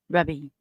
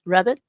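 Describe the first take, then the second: First: "Rabby" ending in an ee sound, no t, falling; corrected name. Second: "Rabbit" with a t ending, rising like a question; misread name. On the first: Streamer correcting a viewer's name to "Rabby", ending in ee. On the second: Streamer misreading a viewer's name, "Rabbit" with a final t. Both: Shown as a demonstration. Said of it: "Not rabbit".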